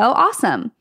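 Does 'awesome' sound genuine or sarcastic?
sarcastic. It is said sarcastically, with mock enthusiasm. Something bad just happened. "If something like you stub your toe"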